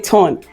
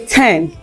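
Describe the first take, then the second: First: The vowel is said like the 'ur' sound. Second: The vowel is said like the 'e' in ten. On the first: "Nigeria will say turn" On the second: "My Ghanaians will say ten"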